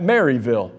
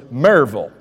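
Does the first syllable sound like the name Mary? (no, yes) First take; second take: yes; no. First: The first syllable sounds like the name Mary. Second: The first syllable does not sound like Mary. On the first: The speaker calls it wrong. "I would pronounce that Maryville, Tennessee, because I pronounce in English" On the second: The speaker calls it right. "it's not Maryville, it's Maryville"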